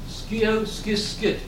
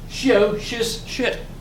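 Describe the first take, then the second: First: The words begin with a 'sk' sound. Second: The words begin with a 'sh' sound. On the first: "in schools, they teach them the Germanic pronunciation" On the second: "If you use the, the Latin or the Roman pronunciation"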